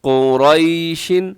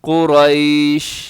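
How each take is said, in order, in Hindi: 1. शब्द के अंत में एक अतिरिक्त 'in' ध्वनि जुड़ती है। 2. शब्द 'sh' ध्वनि पर साफ़ तरह से रुक जाता है। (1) "आगे कुरैशिन" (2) "यहां वक़फ़ करेंगे तो कुरैश"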